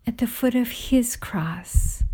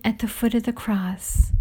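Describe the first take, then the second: First: HIS leaned on, a softer restatement; stress on HIS. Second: Said in the usual way. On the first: A narrator's reading. Narrator corrects to whose cross it is, stress on HIS. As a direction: set HIS apart with slight emphasis.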